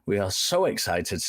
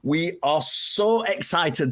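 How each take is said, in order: First: It is said flatly, with no enthusiasm. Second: It is said lively, with clear enthusiasm. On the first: The speaker calls it wrong. "I said that in the most unexcited voice" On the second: The speaker calls it right. "Let me try that again"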